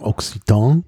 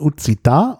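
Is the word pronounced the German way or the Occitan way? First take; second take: German; Occitan. First: It is pronounced the German way. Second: It is pronounced the native Occitan way. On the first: "auf Deutsch würde man vielleicht sagen" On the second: "also richtig ausgesprochen"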